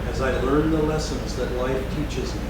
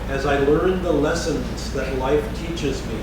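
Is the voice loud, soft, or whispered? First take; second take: soft; loud. First: It is spoken more softly and quietly. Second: It is spoken out loud in full voice. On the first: The affirmation is taken more deeply inward. "then more softly" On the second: The affirmation is spoken outwardly. "first out loud"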